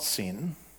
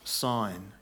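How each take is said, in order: First: It has a short vowel, like 'sin'. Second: It has a long vowel, like 'sign'. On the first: It names wrongdoing. The speaker calls it wrong. "it's not Sin. It's not the desert of sin, of transgression and iniquity" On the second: It names a desert place. The speaker calls it right. "It's pronounced Sin. ... as in a trigonometry"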